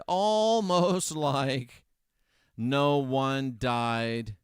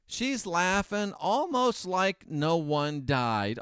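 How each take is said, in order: First: Almost stretched very slowly, a laugh in the middle; stress on Almost, with a laugh. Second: Almost drawn out slowly; stress on almost. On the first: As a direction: drag out Almost like no one died. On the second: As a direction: lean on the word almost. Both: Shown as a demonstration.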